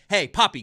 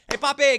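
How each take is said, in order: First: It sounds stern and demanding. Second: It sounds jovial and friendly. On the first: "I'm never like" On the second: "I like to be jovial"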